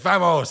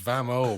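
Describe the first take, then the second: First: The word ends with a clear s sound. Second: The word ends without any s sound. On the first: The speaker calls it wrong. "I'd be like vamos" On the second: The speaker calls it right. "no, it's vamo, bro"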